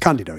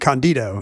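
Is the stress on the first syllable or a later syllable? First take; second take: first syllable; later syllable. First: The stress falls on the first syllable. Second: The stress falls on a later syllable. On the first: The speaker calls it right. "you put the accent on the first syllable" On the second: The speaker calls it wrong. "It would not be Candido"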